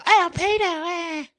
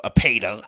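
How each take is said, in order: First: Very high, loud put-on squeaky voice; mock squeal. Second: Said in the usual way. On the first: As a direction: squeal the word in a silly high pitch. Silly mocking repeat of the word.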